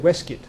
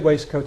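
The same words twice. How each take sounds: First: The word is shortened, with reduced middle sounds. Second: Every letter is sounded, as the spelling suggests. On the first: This is the older way of saying it. "My grandfather said waistcoat" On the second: This is the common way of saying it now. "Most people say waistcoat in England today"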